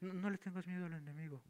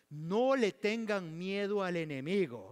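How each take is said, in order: First: It is said softly and without force. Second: It is said loudly and with force. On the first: The command lacks conviction. The speaker calls it wrong. "eso quiere decir que no es así como que" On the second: The speaker is determined and resolute. The speaker calls it right. "entre signos de admiración... era un hombre decidido"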